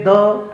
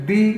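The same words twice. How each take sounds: First: "the" spoken as "duh"; weak form of "the". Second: "the" spoken as "dee"; strong form of "the". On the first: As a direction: say "the" with an uh sound. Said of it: "द पढ़ेंगे।". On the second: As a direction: say "the" with a clear ee sound. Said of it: "इसको पढ़ेंगे". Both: Shown as a demonstration.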